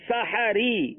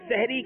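First: The h sound is followed by an a vowel. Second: The h sound runs straight into the r. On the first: The speaker calls it right. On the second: The speaker calls it wrong.

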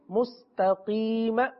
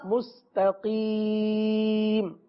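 First: The final consonant is followed by a short vowel. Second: The final consonant is silent with no vowel. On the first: The reading continues into the next word. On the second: The reading stops on this word.

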